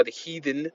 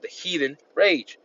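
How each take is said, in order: First: Said in the usual way. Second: Slow, weighty "the heathen rage" with a falling end; preacher stressing "the heathen rage" slowly; emphasis on heathen rage. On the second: Shown as a demonstration. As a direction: lean hard on "heathen rage", drawn out. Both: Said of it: "putting emphasis on that".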